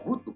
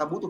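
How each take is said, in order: First: The word is said with strong emphasis. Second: The word is said flatly, without special emphasis. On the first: It signals that the listener really does need it. The speaker calls it right. "pakai penekanan atau vokal yang berbeda" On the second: It only passes on information. The speaker calls it wrong. "jangan kayak gitu kan. Itu mah cuma ngasih tahu doang, nggak canggih ngomongnya"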